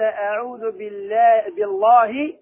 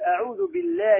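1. اللام في Allah ثقيلة ومفخمة. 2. اللام في Allah خفيفة ورقيقة. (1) "الله عظيم فنقول بالله فخمه" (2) "لأن اللام نصب الجلالة سبقت بكسر فترقب"

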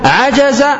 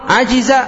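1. الحركة بعد الجيم هي 'a'. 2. الحركة بعد الجيم هي 'i'. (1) "عجز بفتح الجيم في الماضي" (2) "كسر الجيم في الماضي عجز"

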